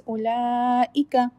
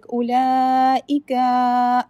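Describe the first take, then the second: First: "Ulaika" slow with the last a kept short; short final letter. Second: "ulaika" with the final a dragged out; the wrong long ending of "ulaika"; overextended last letter. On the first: Shown as a demonstration. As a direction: say "Ulaika" with a clipped end. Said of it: "That's it". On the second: Retold or imitated. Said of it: "try not to extend the last letter like ulaika".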